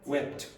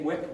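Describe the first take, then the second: First: The final t sound is clearly pronounced. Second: The final t sound is left off. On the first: The speaker calls it right. "You have to pronounce that last consonant" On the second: The speaker calls it wrong. "nobody knows what you're talking about"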